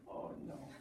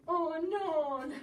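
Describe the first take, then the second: First: Whispered oh no; hushed, voiceless dismay. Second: A little louder, alarmed oh no; higher, alarmed exclamation; dismayed cry. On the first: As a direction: breathe it out as a whisper. Same words whispered after. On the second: Dismay, then repeated whispered. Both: Acted.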